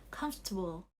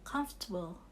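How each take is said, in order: Both takes have the same delivery.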